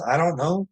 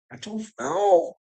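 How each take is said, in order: First: Said in the usual way. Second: Higher and slow, in a put-on voice; put-on musing voice. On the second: Repeating his shrug in a mock voice, higher and slow. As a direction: stretch "I don't know" high and slow, like someone else musing.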